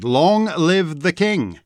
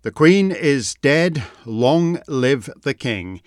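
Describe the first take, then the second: First: Lightly voiced herald, drawn out; a hint of a ceremonial crier; herald's proclamation. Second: Slow, measured royal formula; unhurried, subdued pronouncement; solemn. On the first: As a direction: proclaim it slowly, with a lifted voice. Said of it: "proclaimed the herald". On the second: Real, not acted. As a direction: say it slowly and gravely, falling at the end. Solemn statement of the royal succession.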